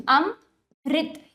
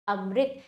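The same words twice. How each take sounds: First: अम, then a clear pause, then रित; broken into parts. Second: Said in the usual way. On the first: Shown as a demonstration. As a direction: split the word as अम... रित. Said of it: "तोड़कर पहले अम कर दीजिए". (अम और रित को तोड़कर, रुककर) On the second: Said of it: "फिर रित कीजिए".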